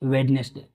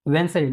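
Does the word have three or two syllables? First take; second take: three; two. First: The word is said in three syllables. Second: The word is said in two syllables. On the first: The speaker calls it wrong. "Not वेडनेसडे" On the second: The speaker calls it right. "वेंसडे, not वेडनेसडे"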